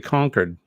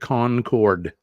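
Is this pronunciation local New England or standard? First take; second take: local; standard. First: It is pronounced in a relaxed local New England way. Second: It is pronounced in the standard, non-local way. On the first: "here in New Hampshire, we say Concord" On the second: "the rest of the folks around the world say Concord"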